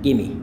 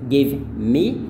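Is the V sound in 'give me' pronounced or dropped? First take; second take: dropped; pronounced. First: The V sound is dropped, like gimme. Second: The V sound is clearly pronounced.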